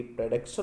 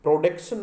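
First: "प्रोडक्शन" with a schwa, "pruh-DUK-shun"; lower-pitched "प्रोडक्शन", first vowel reduced to "pruh"; correct pronunciation. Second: "प्रोडक्शन" with a full rounded "pro"; wrong pronunciation. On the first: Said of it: "क्या बोलेंगे". ("प्रोडक्शन" का सही उच्चारण, "प्र" से) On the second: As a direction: say "प्रोडक्शन" as "pro-DEK-shun". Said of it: "क्या नहीं बोलेंगे". ("प्रोडक्शन" का गलत उच्चारण, साफ़ "ओ" से) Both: Shown as a demonstration.

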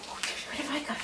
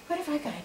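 First: Whispering. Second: Said in the usual way. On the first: Real, not acted. Teasing dog with toy.

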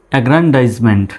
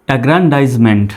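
No difference in how they are said.

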